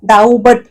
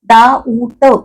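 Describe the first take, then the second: First: The word is said with a b sound. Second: The word is said without any b sound. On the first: The speaker calls it wrong. "डाऊबट असं काहीतरी म्हणत नाही" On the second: The speaker calls it right. "ब कुठे म्हणतो आपण? म्हणतच नाही"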